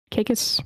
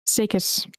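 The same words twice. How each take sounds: First: Kikis said as KAY-kiss, hard k; tentative "Kikis", starting on a k sound; unsure pronunciation. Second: Sakis said as SAY-kiss, opening on s; "Sakis" as SAY-kiss, falling at the end; corrected pronunciation. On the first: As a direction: say Kikis with a hard k opening, as a question. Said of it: "how do you say that one?". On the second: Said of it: "apparently that's a typo". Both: Real, not acted.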